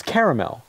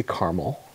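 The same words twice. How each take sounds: First: Caramel said as "CARE-uh-mel"; caramel corrected to a full "CARE-uh-mel"; three-syllable caramel. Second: Caramel said as "CAR-mul"; caramel squeezed into two syllables, "CAR-mul". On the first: Shown as a demonstration. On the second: Retold or imitated. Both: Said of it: "There's an A in there after the R".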